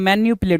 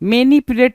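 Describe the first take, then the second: First: The second syllable is said as 'nyu'. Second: The second syllable is said as 'ni'. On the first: The speaker calls it right. "मैन्युपुलेट होता है" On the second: The speaker calls it wrong. "मैनिपुलेट नहीं होता है"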